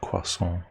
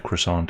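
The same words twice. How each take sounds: First: It is said with a French-like native pronunciation. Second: It is said with an anglicized English pronunciation. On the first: It sounds pretentious to Australians. "instead of croissant" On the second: It avoids sounding pretentious. "That's why we say croissant"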